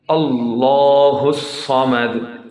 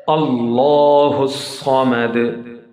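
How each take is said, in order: The two takes are said the same way.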